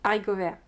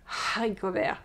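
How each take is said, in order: First: The word starts with no H sound. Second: The word starts with an audible H sound. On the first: The speaker calls it right. "you say haricot vert. It's like there's no H" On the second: The speaker calls it wrong. "you don't say haricot vert"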